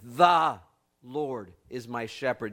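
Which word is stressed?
The. The stress is on the word the.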